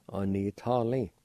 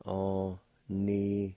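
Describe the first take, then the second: First: Said in the usual way. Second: Slow demonstration. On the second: Shown as a demonstration. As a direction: take Anitali slowly and carefully. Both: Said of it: "It's pronounced like this".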